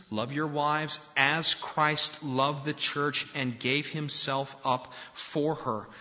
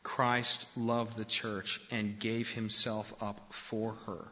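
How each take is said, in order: First: Slow, raised proclamation of the verse; proclaimed scripture. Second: Said in the usual way. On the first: Acted. Pastor quoting Paul to husbands, slow proclamation. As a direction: declaim each word of the verse.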